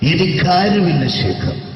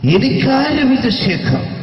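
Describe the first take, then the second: First: The put-on voice is more restrained. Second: The put-on voice is heavily exaggerated. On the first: The speaker calls it right. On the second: The speaker calls it wrong.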